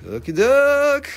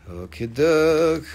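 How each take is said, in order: First: Much higher, louder, slow silly voice; host clowning between items; squeaky okie doke. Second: Slow, put-on silly voice; host clowning between items; goofy okie doke. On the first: Acted. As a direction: pop up into a cartoon voice. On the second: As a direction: drag out okie doke in a funny voice. Playful slow say.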